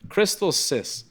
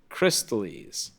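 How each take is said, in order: First: The word ends with a 'sis' sound. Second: The word ends with a 'lis' sound. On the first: The speaker calls it wrong. "I like Crystal Sis. ... that's not even the way it's fucking read" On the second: The speaker calls it right. "I always read it wrong. It's Crystallis"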